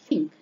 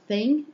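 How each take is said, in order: First: The word begins with an F sound. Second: The word begins with a TH sound. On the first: "it sounds more like think" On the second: "in the case of thing"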